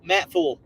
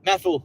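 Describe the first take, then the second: First: The word is said at a normal pace. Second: The word is said very fast. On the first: "it looks like Matt Matful" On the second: "if you say it really fast, it sounds like Matthew"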